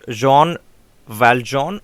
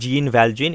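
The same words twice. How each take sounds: First: The name is said with French pronunciation. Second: The name is said without French pronunciation. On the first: The speaker calls it right. "It is in French" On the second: The speaker calls it wrong. "the pronunciation is not actually"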